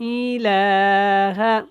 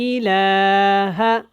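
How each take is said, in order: Both takes have the same delivery.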